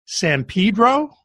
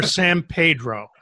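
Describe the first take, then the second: First: San Pedro said "san PEE-dro", long ee sound. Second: San Pedro said "san PAY-dro", ay sound; San Pedro with a Spanish e. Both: Shown as a demonstration. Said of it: "is it ... or".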